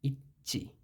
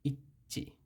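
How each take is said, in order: Both takes have the same delivery.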